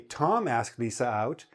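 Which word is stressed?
Tom. The word Tom carries the main stress. It was this person, not another, who asked. "I'm stressing Tom because that's who I want you to understand did this action"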